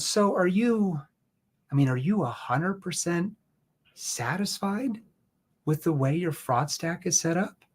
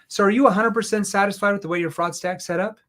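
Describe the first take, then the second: First: The question is asked slowly with pauses. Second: The question is asked fast without pauses.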